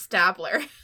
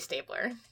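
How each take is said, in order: First: The first syllable does not sound like 'stable'. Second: The first syllable sounds like the word 'stable'. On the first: The speaker calls it wrong. "I assumed it was Stabler" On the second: The speaker calls it right. "it's probably Stabler"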